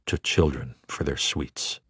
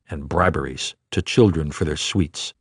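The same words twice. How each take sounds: First: Repeated softer, fading away; soft echo. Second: Said in the usual way. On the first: A narrator's reading. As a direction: let the phrase die out like an echo.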